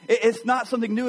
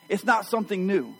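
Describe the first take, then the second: First: It's not something new, a bit louder and pressed; emphatic repeat. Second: Said in the usual way. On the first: Acted. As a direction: drive the repeated line home. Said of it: "repeated for emphasis". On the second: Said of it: "repeats the phrase louder".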